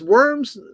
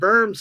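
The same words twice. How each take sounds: First: It is said with an American English pronunciation. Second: It is said with a German pronunciation. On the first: It names the town in Nebraska. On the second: It names the city in Germany.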